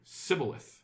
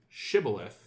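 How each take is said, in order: First: The word begins with an s sound. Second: The word begins with a sh sound. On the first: The speaker belongs to the enemy faction. The speaker calls it wrong. "if you were from the other team... you would pronounce it Sibboleth" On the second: The speaker belongs to the guards' own people. The speaker calls it right. "you were truly one of our people, you would pronounce it shibboleth"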